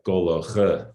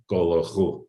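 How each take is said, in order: First: "goloche" ending in an unrounded schwa "uh". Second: "golochu" ending in a rounded "oo". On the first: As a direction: say "goloche" with lips relaxed on the final "uh". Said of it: "there's no spreading of rounding". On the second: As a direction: say "golochu" with the rounding spread to a final "oo". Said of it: "not golochu". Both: Shown as a demonstration.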